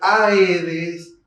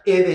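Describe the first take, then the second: First: It begins with separate 'a' and 'e' vowels. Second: It begins with a single 'e' vowel. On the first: The speaker calls it right. "En realidad esto se tiene que leer Aedes" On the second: The speaker calls it wrong. "Yo lo leería Edes"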